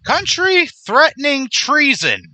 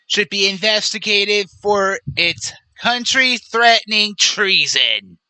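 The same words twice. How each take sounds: First: Slow, high, louder disbelief; incredulous echo. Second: Put-on politician impersonation; Donald Trump. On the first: Real, not acted. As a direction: throw the accusation back in indignant disbelief. Throws quoted accusation back, incredulous. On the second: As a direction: quote the post in a mock presidential voice. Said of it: "But he continues".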